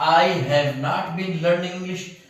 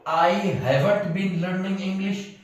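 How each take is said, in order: First: Have not is said as two full words. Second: Have not is contracted into one word, haven't. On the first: The speaker calls it wrong. "हैव नॉट मतलब थोड़ा मुंह में अजीब लगता है" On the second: The speaker calls it right. "उसको हैवंट पढ़ते हैं।"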